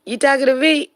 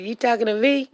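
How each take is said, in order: First: Louder, higher tough-guy dog; mock tough dog voice. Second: Lightly voiced dog, half-hearted tough guy; a light hint of a tough talker; mock dog voice. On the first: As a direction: push the challenge up and out. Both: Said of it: "Shook said".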